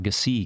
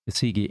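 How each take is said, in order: First: The name ends on a consonant sound. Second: The name ends with an extra vowel sound. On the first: The speaker calls it wrong. "How did I say it? Uh, Gasig, I think, is what I said" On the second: The speaker calls it right. "and it's I think it's Gasigi"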